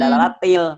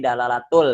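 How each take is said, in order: First: The word ends with an i vowel. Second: The word ends with a u vowel. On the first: The speaker calls it wrong. "maka jangan dibaca dalalatil" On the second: The speaker calls it right. "tapi dalalatul, dibaca uh, domah"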